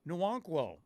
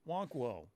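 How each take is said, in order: First: The name begins with an N sound. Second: The name begins without an N sound. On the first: "the N was there" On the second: "the N was silent"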